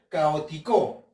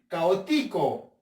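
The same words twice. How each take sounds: First: The stress is on the last syllable, co. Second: The stress is on the third syllable, ti. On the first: "voy a creer que la sílaba tónica lleva en la co" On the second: "Vamos a ver con la ti"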